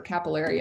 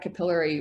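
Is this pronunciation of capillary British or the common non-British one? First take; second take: non-British; British. First: It uses the common non-British pronunciation of the word. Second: It uses the British pronunciation of the word. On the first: "as many people call it" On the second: "I use the British pronunciation"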